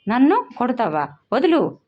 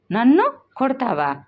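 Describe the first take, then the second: First: Higher, louder shout, struggling to break free; angry cry. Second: Put-on raised, higher child's cry of outrage, stress on నన్ను; angry cry. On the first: Girl struggling in her mother's grip, shouting angrily. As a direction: yell వదులు as she twists away. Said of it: "అరుస్తూ గింజుకుంది". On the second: Girl yelling at her mother who slaps her, angry and raised. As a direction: yell నన్ను కొడతావా with fury. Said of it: "పూజ ఆవేశంతో అరిచింది". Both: A narrator's reading.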